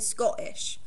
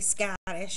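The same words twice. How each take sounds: First: It is said in a Scottish accent. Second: It is said in the speaker's normal accent. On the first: The speaker calls it right. "You'd say Scottish. Because they're Scottish. ... There's no ah in it" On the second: The speaker calls it wrong. "you wouldn't say Scottish, obviously"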